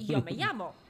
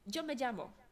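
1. Y i ll brzmią jak angielskie 'y'. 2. Y i ll brzmią jak angielskie 'j'. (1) "ja całe życie się uczyłem" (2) "gościu mówi"

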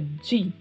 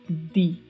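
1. O d é suavizado em direção a um som de dj. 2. O d é um som de d simples e duro. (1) "não existe a pronúncia de" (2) "e sim di"

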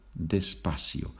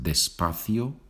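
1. La c se pronuncia como un sonido s. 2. La c se pronuncia como un sonido th. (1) "or the S sound" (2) "The TH sound that you have in English to think"

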